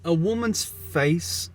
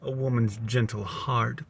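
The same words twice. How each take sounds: First: Higher, slow feminine voice; high woman voice. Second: Said in the usual way. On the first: Pretend. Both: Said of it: "I've already changed my voice".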